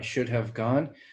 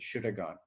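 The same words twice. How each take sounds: First: The word 'have' is said in full. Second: The word 'have' shrinks to a bare schwa. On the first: "we don't say it like that" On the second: "and then reduces more to"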